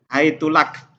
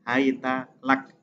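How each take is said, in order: First: The word begins hai- and the t takes u. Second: The word begins hai- and the t takes a.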